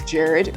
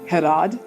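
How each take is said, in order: First: The name begins with a J sound. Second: The name begins with an H sound. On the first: This is how an American would say it. "a truly American pronunciation of his name" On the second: This is how the name's owner says it. "I think he said it's pronounced Herad"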